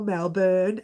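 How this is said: It is said in the Australian pronunciation.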